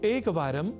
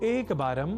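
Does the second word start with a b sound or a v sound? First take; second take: v; b. First: The second word begins with a v sound. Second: The second word begins with a b sound. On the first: The speaker calls it right. "ऐसे ही संस्कृत में वारम" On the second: The speaker calls it wrong. "इस रूप में लिख और बोल जाते हैं"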